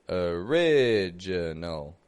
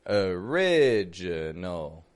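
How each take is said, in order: Both takes have the same delivery.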